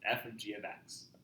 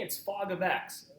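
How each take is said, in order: First: The first part is read as separate letters. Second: The first part is read as one word. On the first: The speaker calls it right. "That's how you would actually pronounce it" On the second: The speaker calls it wrong. "This is not fog. A lot of people like saying that"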